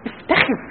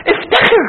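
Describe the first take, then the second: First: افتخر echoed softly, pulled down; soft repeat. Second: افتخر called out high and ringing; rally them with افتخر; proud exhortation. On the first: Preacher repeating his call to the youth, hushed. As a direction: let افتخر sink in quietly. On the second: Preacher urging the youth to be proud, ringing high. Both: Acted.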